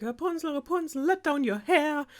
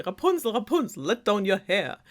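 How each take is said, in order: First: Mock yell-up, high and drawn; witch calling up. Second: Mock yell, moderately raised pitch; retold call up to a tower; prince calling up. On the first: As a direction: voice a witch calling up in a much higher pitch. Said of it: "would, like, yell up to the tower". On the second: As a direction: imitate the witch's call, less high. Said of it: "yell up and be like".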